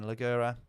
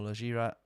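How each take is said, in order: First: "Leggera" with hard g, leh-GAIR-a; pronunciation attempt. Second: "Leggera" with soft g, leh-ZHEER-a; alternative pronunciation attempt. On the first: Streamer unsure how to say a car name, "Leggera" with hard g. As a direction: say "Leggera" with g as in "get". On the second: Streamer offering another reading of a car name, "Leggera" with soft g. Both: Shown as a demonstration. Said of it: "how do you say that again?".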